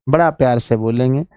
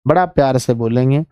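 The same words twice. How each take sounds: The two takes are said the same way.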